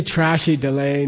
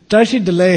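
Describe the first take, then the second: First: "trashy delay" with an English tr sound; wrong foreigner version. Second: "Tashi delay" with a retroflex t, louder; correct Tibetan. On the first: Teacher mocking how foreigners say it, wrong tr. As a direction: say "trashy" the way a tourist mangles it. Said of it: "If you say". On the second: Teacher giving students the correct greeting, retroflex t. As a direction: say "Tashi" with the tongue curled back. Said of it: "happens to be hi in Tibetan". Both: Shown as a demonstration.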